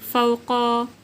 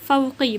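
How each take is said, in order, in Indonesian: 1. Kata itu berakhir dengan vokal 'a'. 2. Kata itu berakhir dengan vokal 'i'.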